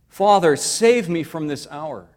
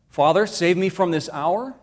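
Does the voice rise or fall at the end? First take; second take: fall; rise. First: It falls at the end like a plea. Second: It rises at the end like a question.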